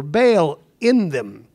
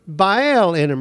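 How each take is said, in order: First: "Baal" said as one syllable, like "bale". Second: "Baal" said as two syllables, "BY-el". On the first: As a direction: clip "Baal" to a single "bale". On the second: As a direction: stretch "Baal" into "BY-el", two beats. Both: Shown as a demonstration. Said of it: "or Baal in them".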